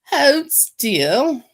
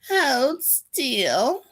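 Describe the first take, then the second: First: It is said in a regal queen voice. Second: It is said in a witchy voice.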